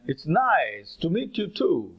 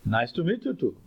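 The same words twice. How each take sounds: First: Slow, drawn-out "nice" and "too", both stressed; stress at beginning and end. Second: "Nice to meet you too" with the stress falling on the closing "you too"; stress at the end. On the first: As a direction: hit "nice" hard, then "too" at the close. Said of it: "in the beginning and at the end". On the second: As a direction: lean on the final words, "you too". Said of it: "the stress is at the end". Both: Shown as a demonstration.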